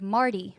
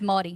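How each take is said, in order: First: The first syllable is said with an r sound. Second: The first syllable is said as maw, no r. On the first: This is how outsiders reading the word say it. "people who live, I don't know, in Connecticut, when they're reading the words Mardi Gras, they say it like" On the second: This is how locals say it. "But for us, it's Mardi. M A W D I"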